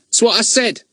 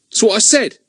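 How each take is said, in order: First: High, teasing mock of Ern; mimicking Ern. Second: Put-on high, sulky boy's mutter. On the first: Fatty teases Ern by echoing him, high and mocking. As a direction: parrot him back cheekily. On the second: Ern sulks at Daisy, high and sulky. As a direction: grumble it, put out. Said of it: "looking sulky".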